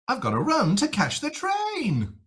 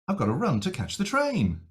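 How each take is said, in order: First: Very anxious, with a strongly exaggerated pitch shape. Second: More anxious, with a bigger pitch shape. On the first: The speaker is very worried or irritated. "more and more anxious or more and more irritated" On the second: The speaker is more worried or irritated. "more and more anxious"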